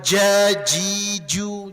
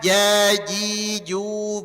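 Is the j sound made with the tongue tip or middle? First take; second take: tip; middle. First: The j is made with the tip of the tongue. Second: The j is made with the middle of the tongue. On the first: The speaker calls it wrong. "Bukan jajiju, jangan" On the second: The speaker calls it right. "Jaji tengah lidah dia nih"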